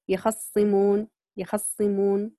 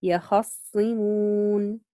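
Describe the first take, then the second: First: يخصمون with the fatha on خ clipped short and quick; ikhtilas on the kha. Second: يخصمون slow, the fatha on خ held to full length; full vowel on the kha. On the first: Teacher demonstrating Qalun's quick fatha in يخصمون. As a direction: say يخصمون rushing the short vowel on خ. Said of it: "قرأ بالاختلاس في الخاء في الفتحة". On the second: Teacher demonstrating Warsh's full fatha in يخصمون. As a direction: draw out يخصمون, completing the vowel on خ. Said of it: "فقرأ بإتمام الحركة". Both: Shown as a demonstration.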